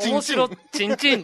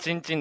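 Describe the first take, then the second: First: The word is said with a raised, playful pitch. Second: The word is said with its ordinary pitch. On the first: The speaker calls it wrong. "お前の面白チンチンであげるなや" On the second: The speaker calls it right. "普通の言い方だったらチンチンだけど"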